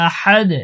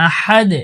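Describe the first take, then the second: Both takes have the same delivery.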